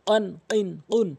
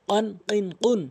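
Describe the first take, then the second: The two takes are said the same way.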